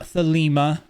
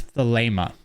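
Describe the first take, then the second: First: Thelema with an EE in the middle, pitched higher; thelema, middle syllable rhyming with "see"; wrong pronunciation. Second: Thelema with a long AY in the middle; thelema, middle syllable rhyming with "lay"; correct pronunciation. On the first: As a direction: say thelema as thuh-LEE-muh, higher. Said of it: "Not thelema". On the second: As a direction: say thelema as thuh-LAY-muh. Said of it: "That's how you pronounce it". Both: Shown as a demonstration.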